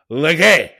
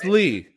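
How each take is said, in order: First: The name ends with a hard G sound. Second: The name ends on a vowel, no G sound. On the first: This is how the spelling suggests it. The speaker calls it wrong. "there's a G in there, it should be pronounced" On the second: This is the name's actual pronunciation. The speaker calls it right. "but it's Lee"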